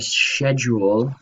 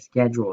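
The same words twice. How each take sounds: First: It is said with a British pronunciation. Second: It is said with an American pronunciation.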